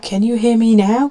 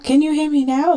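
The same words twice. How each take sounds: First: It is said somewhat louder. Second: It is said loudest of all.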